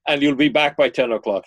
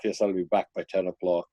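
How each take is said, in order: First: Loud, brisk motherly condition; mother extracting promises. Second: Quick, lower, dutiful echo; son promising compliance. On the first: Mother to son about his curfew, firm demand. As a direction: set the curfew firmly as Mom. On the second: Retold or imitated. Son to his mother about curfew, dutiful promise. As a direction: parrot the promise like a placating son. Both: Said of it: "she extracts all kinds of promises".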